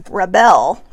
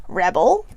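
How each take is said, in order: First: Rebel said as re-BEL, stress on the second syllable; "rebel" with the stress on the last syllable; verb rebel. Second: Rebel said as REB-el, stress on the first syllable; "Rebel" with first-syllable stress, REB-uhl; noun rebel. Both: Shown as a demonstration. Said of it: "this can either be read as rebel or rebel".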